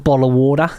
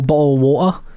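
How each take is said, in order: First: It is said in an Australian accent. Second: It is said in a British accent.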